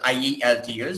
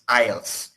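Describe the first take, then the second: First: Each letter is said separately, one by one. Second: The letters are run together as one word. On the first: The speaker calls it wrong. "we don't say it as" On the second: The speaker calls it right. "we say it's"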